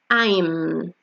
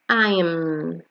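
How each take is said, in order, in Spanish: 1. Las dos palabras se unen en una sola sílaba. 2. Las dos palabras se unen en una sola sílaba.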